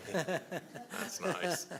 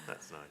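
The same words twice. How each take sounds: First: Bright laugh through the words, much higher; chuckling it out delighted. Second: Said in the usual way. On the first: Real, not acted. Interviewer amused by the jam jar line, laughing.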